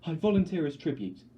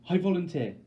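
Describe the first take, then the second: First: High, loud and urgent; desperate declaration. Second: A high, loud, breathless I volunteer; gasped cry. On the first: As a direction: throw yourself forward with the words. Volunteering for her sister. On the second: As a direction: blurt it out before anyone stops you. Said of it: "I gasp". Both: Acted.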